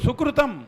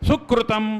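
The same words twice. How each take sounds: First: The first syllable is light and unpressed. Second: The first syllable is pressed and heavy. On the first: The speaker calls it right. "సుడిని ఎప్పుడు కూడా నొక్కి పలకూడదు" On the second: The speaker calls it wrong. "సుకృతం అంటాడు, సుకృతం అనకూడదు"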